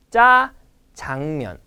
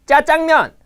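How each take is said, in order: First: Strong 짜, then ease off on 장면; correct pronunciation. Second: 짜장면 hard and loud on both 짜 and 장; wrong double tensing. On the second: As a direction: hammer it out as "jja-jjang-myeon". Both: Shown as a demonstration. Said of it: "No, no, no".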